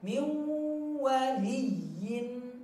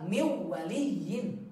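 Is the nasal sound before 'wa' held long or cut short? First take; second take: long; short. First: The nasal sound is held and lengthened. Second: The nasal sound is rushed and cut short. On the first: The speaker calls it right. "gunnahnya dipanjangkan" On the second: The speaker calls it wrong. "Jangan tergesa-gesa min waliyin, enggak"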